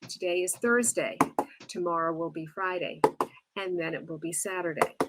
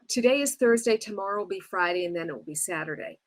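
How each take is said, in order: First: There are short pauses between the phrases. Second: It is run together in one breath.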